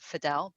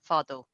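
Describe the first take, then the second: First: The surname is said in an English-sounding way. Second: The surname is said in an Arabic way. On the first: "but that's been anglicized" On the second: "for the Egyptians in the room"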